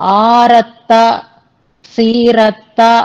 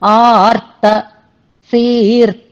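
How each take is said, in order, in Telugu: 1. r తర్వాత పూర్తి అచ్చు ఉచ్చరించబడుతుంది. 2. r అచ్చు లేకుండా t తో కలుస్తుంది. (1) "అని చదవకూడదు" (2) "రా కింద తావత్తు ఉన్నట్టుగా మనం అనుసంధానం చేయాలి"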